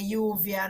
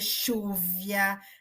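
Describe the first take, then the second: First: The first consonant sounds like y. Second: The first consonant sounds like sh. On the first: This is how they speak now. "Eles falam" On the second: This is how they no longer speak. "Eles não falam mais"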